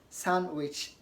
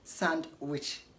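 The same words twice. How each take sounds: First: It is said without a d sound. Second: It is said with a d sound. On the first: The speaker calls it right. "D is not pronounced in sandwich" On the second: The speaker calls it wrong. "not sandwich"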